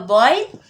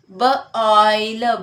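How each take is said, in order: First: Said in the usual way. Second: B-oil, split into b and oil; segmented. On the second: Shown as a demonstration. Teacher splitting the word for students. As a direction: break it into b and oil.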